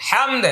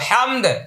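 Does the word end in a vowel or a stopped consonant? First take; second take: consonant; consonant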